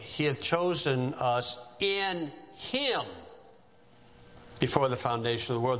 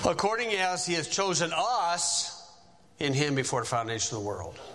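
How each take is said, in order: First: The stress is on "him". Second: The stress is on "us".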